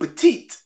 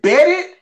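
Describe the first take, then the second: First: It sounds like the word petite. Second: It sounds like the two words bet it. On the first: "or is it petite?"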